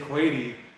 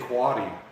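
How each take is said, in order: First: The vowel is long, rhyming with 'crazy'. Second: The vowel is short, as in 'dad'. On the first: "Most people don't say Quady. ... it's crazy Quady" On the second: "Most people will say Quaddy"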